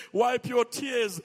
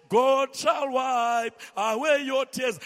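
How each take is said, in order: First: Said in the usual way. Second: Slow, louder, stretching "away"; preached promise. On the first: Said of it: "stroking people and giving them tissue". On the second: Shown as a demonstration. Pastor proclaiming God's comfort, slow and strong.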